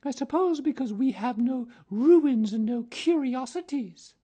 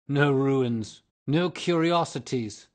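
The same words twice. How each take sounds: First: Satirical. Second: Loud, high scornful echo; ghost echoing scornfully. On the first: A narrator's reading. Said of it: "said Virginia satirically". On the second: Acted. Ghost mocking Virginia's words, loud and high. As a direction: throw her words back, loud. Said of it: "answered the ghost".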